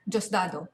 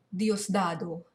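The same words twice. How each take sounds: First: "Dios dado" as JOS-da-do; "Dios dado" run together, starting with a j sound; own preferred pronunciation. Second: "Dios dado" as DEE-os DA-do; "Dios dado" with a clear d and separate i in "Dios"; rejected pronunciation. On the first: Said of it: "I'm saying". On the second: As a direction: say "Dios dado" with "Dios" in two syllables. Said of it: "I'm not saying". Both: Shown as a demonstration.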